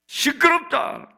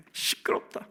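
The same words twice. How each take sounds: First: High, slow, drawn-out rebuke; raised-voice hushing of a crier; scolding shout. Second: Whispered scolding, very soft; low-volume, voiceless repeat of the rebuke; hushed rebuke. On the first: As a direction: shut the noise down, high and stretched. Crowd rebukes the shouting blind man. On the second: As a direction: hiss it under the breath. Same rebuke repeated under the breath. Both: Acted.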